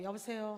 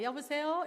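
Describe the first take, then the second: First: Said in the usual way. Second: High, loud phone greeting with a rising end. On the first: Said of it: "이렇게 신나는 톤으로 해도 안 되고". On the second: Shown as a demonstration. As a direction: pitch "여보세요" up on sol, lifting at the end. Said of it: "소울 톤으로 하시면은". (높고 크게, 끝을 올린 솔 톤)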